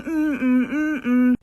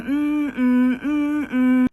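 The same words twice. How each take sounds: First: Soothing hum. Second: Creepy humming. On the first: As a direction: hum it gently, like rocking a baby to sleep. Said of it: "how she would soothe me, is by rocking back and forth, going". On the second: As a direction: hum it slowly like a child rocking herself. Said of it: "rocking back and forth in her room going". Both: Retold or imitated.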